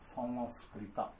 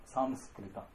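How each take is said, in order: First: The name ends with a full ta syllable. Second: The same.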